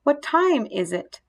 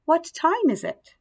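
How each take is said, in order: First: WHAT TIME IS IT evenly spaced, moderately raised; corrected version. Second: Higher WHAT TIME IS IT, falling away at the end; learner's mistaken version. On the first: Daughter corrects her mother, clearly modelled WHAT TIME IS IT. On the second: Mother practises English with dad, higher learner's WHAT TIME IS IT. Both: A narrator's reading. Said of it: "Saya corrected".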